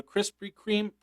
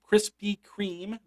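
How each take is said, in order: First: Said in the usual way. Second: "Krispy Kreme" drawn out with a rising lift on Krispy; slow, deliberate "Krispy Kreme" as a lesson; careful pronunciation. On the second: Shown as a demonstration. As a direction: say "Krispy Kreme" slowly, every sound spelled out. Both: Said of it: "that's how you pronounce it".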